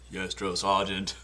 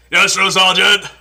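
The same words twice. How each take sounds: First: Said in the usual way. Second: Much louder, higher barked reply; army shout. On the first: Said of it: "Now for Forrest Gump". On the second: Retold or imitated. Recruit answering the drill sergeant, loud shout.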